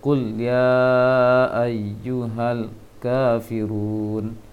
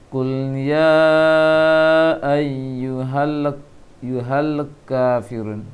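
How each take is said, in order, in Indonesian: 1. Huruf L pada kul dipotong pendek dengan cepat. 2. Huruf L pada kul ditahan tetapi dibunyikan bergetar.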